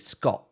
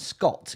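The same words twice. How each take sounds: First: The final t is replaced by a glottal stop. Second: The final t is clearly pronounced. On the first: "It's called a glocal stop" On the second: "instead of saying Scott"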